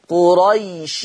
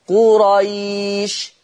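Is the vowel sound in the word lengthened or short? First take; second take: short; lengthened. First: The vowel before the final sound is short. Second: The vowel before the final sound is drawn out. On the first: The word runs on into the next word. "خلاص ما فيش مد" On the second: The reader stops on this word. "مديت"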